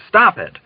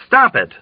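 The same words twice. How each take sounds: First: Angry roar. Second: Cheeky imitation of the officer; mocking echo. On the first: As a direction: snap it out in outrage. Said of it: "he roared angrily". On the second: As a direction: parrot him back to provoke. Dunbar mockingly echoes the officer. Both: A narrator's reading.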